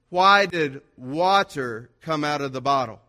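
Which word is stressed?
water. The stress is on "water".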